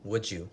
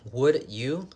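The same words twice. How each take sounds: First: The two words blend quickly into one sound. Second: The two words are said separately and clearly.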